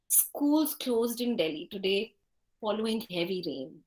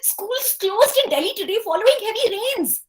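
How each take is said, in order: First: The sentence is spoken at a slow pace. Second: The sentence is spoken at a quick pace.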